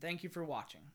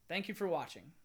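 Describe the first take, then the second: First: The sign-off is said in a flat, less warm tone. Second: The sign-off is said in a warm, friendly tone. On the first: The speaker calls it wrong. "I think it should be more friendly" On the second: The speaker calls it right. "That was better"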